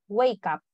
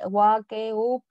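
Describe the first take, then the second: First: "wake up" run together as "way-kap"; linked as one word. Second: "up" in "wake up" read Spanish-style as "oop"; mispronounced "wake up". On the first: Teacher modelling the pronunciation, "wake up" linked as one word. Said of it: "Lo pronuncias como si fuera una sola palabra". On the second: Teacher showing students what to avoid, "wake up" misread Spanish-style. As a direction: say "wake up" as spelled, with an "oop" ending. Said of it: "No dices we". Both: Shown as a demonstration.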